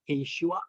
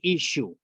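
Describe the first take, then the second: First: The name ends with a final 'ah' sound. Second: The name ends on an 'oo' sound. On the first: This is the full Aramaic form. "that's the full" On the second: This is how Assyrian people say it. "They don't pronounce the uh at the end"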